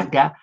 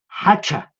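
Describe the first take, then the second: First: The second consonant is a plain k sound. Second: The second consonant is a ch sound.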